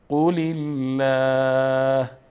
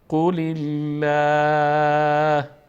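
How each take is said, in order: First: The L in Allah is light and thin. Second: The L in Allah is light and thin.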